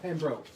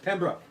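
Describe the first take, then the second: First: The second syllable is said like 'broke'. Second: The second syllable is not said like 'broke'. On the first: The speaker calls it wrong. "Not Pembroke" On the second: The speaker calls it right. "It's Pembroke"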